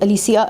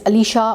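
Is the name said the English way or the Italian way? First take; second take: Italian; English. First: The name is said with an Italian pronunciation. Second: The name is said with an English pronunciation. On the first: "अगर हम उसको Italian में करते हैं" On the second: "अगर हम उसको इंग्लिश में प्रोनाउंस करते हैं"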